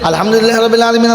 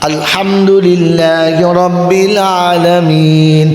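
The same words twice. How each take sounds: First: It is recited very fast, words rushed together. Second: It is recited slowly, each word clearly separated. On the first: It is read through to finish, without understanding. The speaker calls it wrong. "এটা হলো খতম করা।" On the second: It is read with understanding. The speaker calls it right. "আস্তে আস্তে বুঝে বুঝে।"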